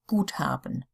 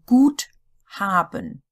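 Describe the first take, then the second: First: The two words are said at normal speed. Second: The two words are said very slowly. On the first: The speaker calls it right. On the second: The speaker calls it wrong.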